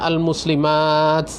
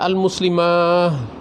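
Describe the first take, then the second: First: The word ends with a t sound. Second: The word ends with an h sound. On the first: "taknya dia" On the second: "pakai hak"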